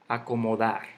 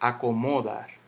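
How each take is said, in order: First: The stress falls on the last syllable. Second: The stress falls before the last syllable. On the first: The speaker calls it right. "Aquí de nuevo" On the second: The speaker calls it wrong. "Yo no digo acomodar"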